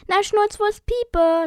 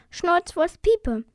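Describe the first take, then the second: First: Put-on higher and louder, drawn-out girl's voice; emphatic repeat. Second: High, slow, louder name-giving; little girl's answer. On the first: A narrator's reading. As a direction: repeat it as if obvious, slowly and loudly. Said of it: "sagte das Mädchen noch einmal". (hoch, laut und gedehnt wiederholt) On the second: Acted. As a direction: state the name slowly, pitched up like a little girl. Girl first states her odd name. (hohe, langsame Mädchenstimme)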